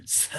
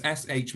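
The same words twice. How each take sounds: First: "s" hissed, then a puff of h; separate sounds. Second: "sh" as one hushing sound; joined sound. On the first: Teacher showing the other reading, "s" followed by separate h. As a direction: say "s" and h apart, never a hush. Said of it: "the sound s and the sound h". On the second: Teacher showing one reading of S H, "sh" as one sound. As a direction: say "sh" as a single consonant. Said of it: "Does S H mean sh". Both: Shown as a demonstration.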